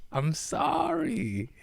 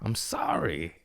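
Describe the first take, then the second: First: \"I'm sorry\" slow and much higher, stretched out; a drawn-out, high, silly apology; squeaky mock apology. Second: \"I'm sorry\" whispered, breathy and toneless; whispered apology. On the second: Pretend.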